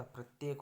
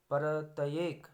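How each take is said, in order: First: Said in the usual way. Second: परतएक said loud and stretched, 'par-ta-yek', rising; broken-up cluster. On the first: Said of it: "होता है". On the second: Shown as a demonstration. Teacher showing a mistake, परतएक drawn out 'par-ta-yek'. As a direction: split परतएक into separate syllables. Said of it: "परतएक नहीं होता".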